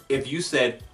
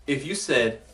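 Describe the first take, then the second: The two takes are said the same way.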